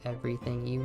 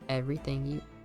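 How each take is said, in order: First: It is said in a put-on robot voice. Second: It is said in a normal, natural voice. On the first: The speaker calls it right. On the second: The speaker calls it wrong.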